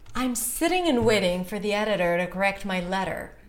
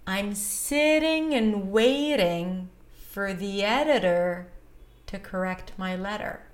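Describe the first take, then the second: First: The sentence is said at a faster pace. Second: The sentence is said at a slower pace.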